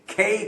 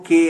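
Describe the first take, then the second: First: The k is said with a strong puff of air. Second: The k is said without a puff of air. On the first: The speaker calls it right. "खे खे कहा था ना मैंने" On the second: The speaker calls it wrong. "मैंने ये नहीं कहा था कि वो के है"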